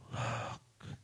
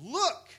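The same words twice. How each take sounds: First: It is said flatly and quietly. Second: It is said loudly and with force.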